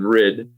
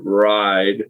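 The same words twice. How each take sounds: First: "rid" with a short ih vowel; short I sound. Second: "ride" with a clean, long eye vowel; clean I sound. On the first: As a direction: say "rid" to rhyme with "id". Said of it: "but without the E, it'd be id". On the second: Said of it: "more of a clean I sound". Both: Shown as a demonstration.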